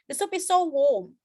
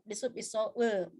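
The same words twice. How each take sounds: First: The vowel in warm sounds like war. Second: The vowel in warm sounds like work. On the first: The soup is hot. The speaker calls it right. "kalau misalnya maksudnya hangat adalah" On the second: It sounds like a word for a crawling creature. The speaker calls it wrong.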